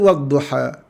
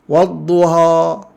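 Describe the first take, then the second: First: The final a is a normal open vowel. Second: The final a is overly wide and exaggerated. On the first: The speaker calls it right. "Dia mesti wadduha" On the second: The speaker calls it wrong. "fathah yang melampau ... tak boleh"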